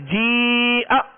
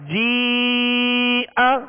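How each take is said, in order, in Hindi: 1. आखिरी स्वर झटके के साथ काटा जाता है। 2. आखिरी स्वर खुले तौर पर बिना झटके के खत्म होता है। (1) "आखिर में झटका नहीं देंगे, जी आ ऐसे नहीं पढ़ेंगे" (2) "बगैर खींचे बगैर झटका दिए इसकी जबर को आवाज और मुंह खोलकर अदा करेंगे"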